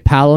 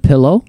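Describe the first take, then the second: First: The first vowel sounds like 'ah'. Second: The first vowel sounds like 'ih'. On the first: The speaker calls it wrong. "People say Palo instead of pillow" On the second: The speaker calls it right. "instead of pillow"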